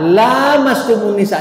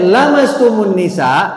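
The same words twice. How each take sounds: First: The first vowel is drawn out long. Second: The first vowel is kept short. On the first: Only marital relations break the ablution. "dengan panjang lanya" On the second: Even accidental touching breaks the ablution. "dibaca pendek"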